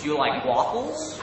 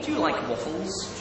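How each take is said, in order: First: American "wahffles"; American accent. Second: Said in the usual way. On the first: Shown as a demonstration. Brit trying chat's question, American accent. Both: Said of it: "my best American accent".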